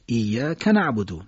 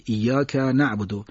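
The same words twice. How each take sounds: First: ایاک held on ya, short ka linked to نعبدو; short joined vowel. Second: ایاک with drawn-out ka, split from نعبدو; overcareful separation. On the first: Teacher showing native speakers' way, joined reading. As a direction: say iyya, then kana'budu for ایاک نعبدو. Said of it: "صدای کوتاه رو نمیکشن". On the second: Teacher imitating obsessive reciters, separated words. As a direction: slowly separate iyyaka from نعبدو. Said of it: "از هم جدا کنن". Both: Shown as a demonstration.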